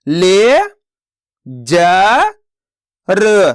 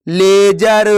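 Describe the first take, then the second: First: ले, जा, र each spoken apart with pauses; slow teacher sounding out ले जा र; syllable by syllable. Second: Said in the usual way. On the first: Shown as a demonstration. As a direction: sound out ले जा र one syllable at a time. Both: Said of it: "तो मिलके बन जाएगा".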